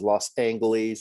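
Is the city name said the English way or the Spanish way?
English. The name is said with an English pronunciation. The speaker calls it wrong. "mangled the pronunciation"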